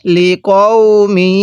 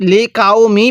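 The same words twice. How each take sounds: First: Careful tajweed model of লিকওমি; correct recitation. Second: লিকাউমি unstretched, with front k and "au"; mistaken pronunciation. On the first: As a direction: draw out লিকওমি with a back q. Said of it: "কিভাবে পড়তে হবে?". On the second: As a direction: say লিকাউমি with "kau" instead of "qow". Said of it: "পড়া যাবে না". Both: Shown as a demonstration.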